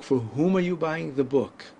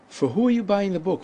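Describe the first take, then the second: First: Whom said with a clear final m; the correct whom version; careful whom. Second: Who said as plain hoo with no m, higher and brighter; the everyday who version; casual who. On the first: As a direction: close on the m in whom. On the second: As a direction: drop the m: For who are you buying the book. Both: Shown as a demonstration.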